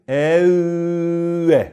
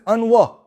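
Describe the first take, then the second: First: The n merges into a doubled, nasal held w. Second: The n is said separately before the w. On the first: The speaker calls it right. "We pronounce it nasally" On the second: The speaker calls it wrong. "before we learn the rule, how would we read this?"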